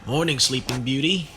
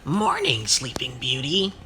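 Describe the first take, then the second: First: It is said in an Australian accent. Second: It is said in a gravelly character voice.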